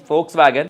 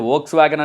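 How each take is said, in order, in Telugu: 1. ఈ పేరు F ధ్వనితో మొదలవుతుంది. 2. ఈ పేరు V ధ్వనితో మొదలవుతుంది. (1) "బట్ దాని ప్రొనౌన్సియేషన్ ఫోక్స్ వ్యాగన్" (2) "కొంతమంది వోక్స్ వ్యాగన్ అని కూడా అంటుంటారు"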